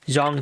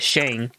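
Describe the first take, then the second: First: It begins with a soft z-like sound. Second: It begins with a clear sh sound. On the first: The speaker calls it right. "It's actually pronounced Zong Chi" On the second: The speaker calls it wrong. "like not shang"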